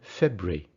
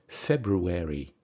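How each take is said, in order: First: It is said with fewer, shortened syllables. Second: It is said with more, fuller syllables. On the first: "in British English" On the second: "in American English, it'll definitely be February"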